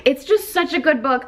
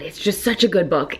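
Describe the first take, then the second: First: High, gushing repeat; excited. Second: Said in the usual way. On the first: Real, not acted. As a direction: swoon over the book. Repeats praise, second higher.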